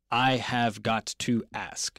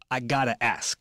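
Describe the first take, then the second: First: Every word is spoken fully and separately. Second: 'Have' is dropped and 'got to' becomes 'gotta'. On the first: It is the formal standard form. "这不是正式的英文，it would be I have got to ask" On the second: It is casual everyday speech. "但是自然口语我们就I gotta ask"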